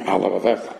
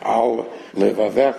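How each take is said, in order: First: The two words run together as one. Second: A brief break separates the two words. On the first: The speaker calls it wrong. "It sounds like one thing" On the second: The speaker calls it right. "you need to make a small hefsek"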